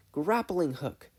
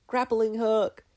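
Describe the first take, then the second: First: Put-on high, loud girl's gasp; gasped exclamation. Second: Put-on high, loud girl's cry; triumphant shout. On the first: Mabel suddenly remembering her gadget, high and excited. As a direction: blurt it out like a sudden idea. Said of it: "she gasped". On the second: Mabel firing her hook, loud and triumphant. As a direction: yell it out in triumph.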